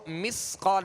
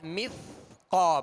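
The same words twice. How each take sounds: First: The middle consonant is a sharp, whistling s. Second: The middle consonant is a soft th. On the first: The speaker calls it wrong. "इसको मिस्क़ा नहीं" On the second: The speaker calls it right. "मिस्क़ा पढ़ेंगे"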